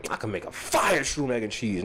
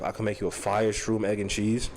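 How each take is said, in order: First: Said in the usual way. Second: A lightly voiced New York hustler, low and easy; New York drug user. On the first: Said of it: "That's the most New York". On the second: Quoting himself to the camera in a mild New York hustler voice. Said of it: "That's the most New York, uh, former drug user thing".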